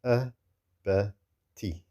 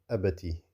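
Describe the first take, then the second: First: "Abati" very slowly, as a, ba, ti apart; short syllables, separated. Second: "Abati" run together with short vowels; short sounds, joined. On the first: Teacher drills short sounds for learners, syllable by syllable. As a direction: leave gaps between short syllables of "Abati". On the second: Teacher drills short sounds for learners, joined up. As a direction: say "Abati" as one short word. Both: Shown as a demonstration. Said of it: "still short sounds".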